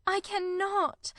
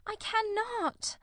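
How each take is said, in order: First: Slow, higher, anguished; cried. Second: Slow, much higher, breaking off; cried. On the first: Marianne refusing her sister, slow anguished cry. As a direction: drag it out in despair. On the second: Marianne repeating her refusal, slow anguished cry. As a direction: let the second one break higher and slower. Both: A narrator's reading. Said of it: "cried Marianne".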